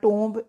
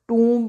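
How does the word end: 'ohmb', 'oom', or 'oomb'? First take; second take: ohmb; oomb. First: It ends in 'ohmb' with a 'b' sound. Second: It ends in 'oomb' with a 'b' sound. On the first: "नहीं बोलना" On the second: "नहीं बोलना"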